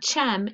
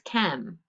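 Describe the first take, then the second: First: It begins with a ch sound. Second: It begins with a k sound. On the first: The speaker calls it wrong. "It's not chem" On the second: The speaker calls it right. "it's chem"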